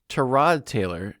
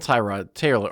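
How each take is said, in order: First: The first syllable has a weak, reduced vowel. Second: The first syllable has a full, strong 'eye' vowel. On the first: The speaker calls it right. "if you want to pronounce it correctly" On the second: The speaker calls it wrong. "they really hit the I in the Tyrod Taylor"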